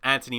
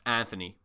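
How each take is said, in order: First: The middle consonant is a plain t sound. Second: The middle consonant is a th sound. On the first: "That's how you pronounce it" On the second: "like with the T H"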